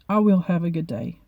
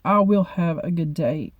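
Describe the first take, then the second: First: It is said plainly, without added force. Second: It is said with strong, forceful emphasis.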